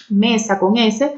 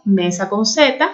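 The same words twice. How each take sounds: First: "mesa con S", slow, leaning on the letter S; slow stress on S. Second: "mesa con Z", slow, leaning on the letter Z; slow stress on Z. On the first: Teacher to class, stressing the letter S slowly. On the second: Teacher to class, stressing the letter Z slowly. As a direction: draw out "Z" to mark the difference. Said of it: "ahí está la ligera diferencia". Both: Shown as a demonstration.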